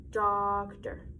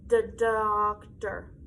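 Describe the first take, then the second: First: Said in the usual way. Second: "doctor" drawn out slowly, sound by sound; slow "doctor" so each sound is heard; stretched-out word. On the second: Shown as a demonstration. Teacher stretching "doctor" so children hear its sounds. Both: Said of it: "what sounds do we hear?".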